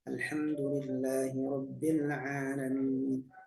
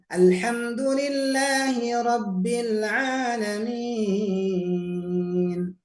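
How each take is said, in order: First: It is said in a very quiet voice. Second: It is said in a loud voice. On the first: "Turunkan serendah-rendahnya" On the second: "Kita keraskan suaranya"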